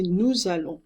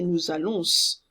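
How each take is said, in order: First: "nous allons" with z link, nasal ending; silent final S. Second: "nous allons" ending in a hissed s sound; sounded final S. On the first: Teacher shows the right way, silent final S. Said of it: "You say nous allons". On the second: Teacher shows the wrong way, sounded final S. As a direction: say "nous allons" with the last s heard. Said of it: "you don't say nous allons". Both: Shown as a demonstration.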